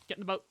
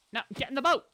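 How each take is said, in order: First: Said in the usual way. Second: Loud, high-pitched order; insistent command. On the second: Real, not acted. Player ordering a sheep into a boat, loud and insistent.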